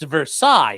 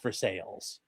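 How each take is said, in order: First: It is said with the French pronunciation. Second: It is said like the English words 'for sales'. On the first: This is how it is said in France. "it's pronounced Versailles if you're in France" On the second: This is how locals in Ohio say it. "In Ohio, it's pronounced for sales"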